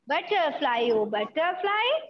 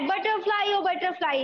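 First: It is said slowly. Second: It is said fast.

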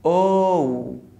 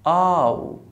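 First: The vowel is said with rounded lips. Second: The vowel is said with relaxed, unrounded lips. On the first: The speaker calls it right. "I need to make sure that my lips are rounded" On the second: The speaker calls it wrong. "when you relax your lips and you open your mouth, the sound changes"

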